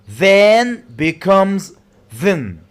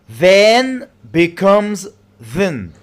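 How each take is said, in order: The two takes are said the same way.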